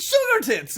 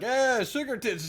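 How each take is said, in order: First: High, loud, gleeful exclamation; delighted Winthrop. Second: Other guy chiming in. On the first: Winthrop savours his wife's new nickname, gleefully. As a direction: crow it with relish, way up high. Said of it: "Winthrop is like". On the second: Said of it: "the other guy is like". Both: Acted.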